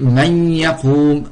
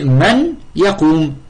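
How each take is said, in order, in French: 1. Le n se fond dans le y, en gardant un son nasal. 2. Le n est prononcé clairement avant le y. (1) "on dit man yaqoum" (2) "à l'origine c'est man yaqoum"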